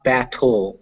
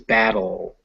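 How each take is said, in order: First: The middle consonant is a crisp, stopped T. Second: The middle consonant is a soft D-like sound. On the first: The speaker calls it wrong. "not it's not battle" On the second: The speaker calls it right. "with a duh"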